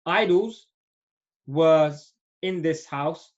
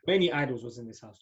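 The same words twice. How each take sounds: First: Slowly, word by word, loud on idols; slow, careful reading. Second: Said in the usual way. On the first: Shown as a demonstration. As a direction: spell out the translation slowly for the students.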